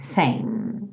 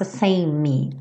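First: The word ends on the M sound. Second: The word does not end on the M. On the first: The speaker calls it right. "terminando o som no M" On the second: The speaker calls it wrong. "então não faça same"

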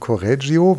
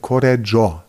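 First: The name is said the German way. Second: The name is said the Italian way.

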